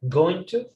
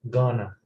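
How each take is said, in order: First: Both words are said fully and separately. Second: The words are blended into one short form.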